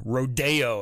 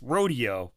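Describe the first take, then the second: First: "Rodeo" as ro-DAY-o, stress on the middle; "Rodeo" the snobbish way, ro-DAY-o; pretentious pronunciation. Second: Said in the usual way. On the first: Shown as a demonstration. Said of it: "as they pronounce it". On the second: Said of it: "It's rodeo".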